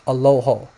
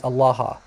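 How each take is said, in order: First: "Aloho" said a-LO-ho, with oh vowels; Western pronunciation. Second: "Allah" said a-la-HA, with ah vowels; Eastern pronunciation. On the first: Teacher gives the Western word for God, Western pronunciation. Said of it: "maybe in Western, you know that it's pronounced". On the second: Teacher gives the Eastern word for God, Eastern pronunciation. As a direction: give "Allah" open ah sounds, ending in ha. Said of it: "Eastern Syriac, Eastern Aramaic". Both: Shown as a demonstration.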